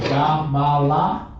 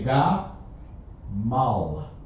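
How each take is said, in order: First: It is said in three syllables, ending in a vowel. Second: It is said in two syllables, ending in l. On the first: The speaker calls it wrong. "Instead of you saying ga ma la" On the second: The speaker calls it right. "drop the last consonant or the, the last vowel sound"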